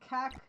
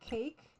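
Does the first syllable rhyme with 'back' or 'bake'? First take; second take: back; bake. First: The vowel is short, rhyming with back. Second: The vowel is long, rhyming with bake. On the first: "I always pronounce it cack" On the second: "not cake"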